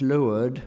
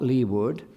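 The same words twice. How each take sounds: First: LEEWARD said as "loo-ard"; nautical pronunciation. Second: LEEWARD said as "lee-ward"; spelling pronunciation. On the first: Lecturer shows Eliot knows nautical terms, leeward as loo-ard. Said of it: "He knows that it's leeward". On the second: Lecturer gives the rejected form, lee-ward as spelt. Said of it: "not leeward". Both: Shown as a demonstration.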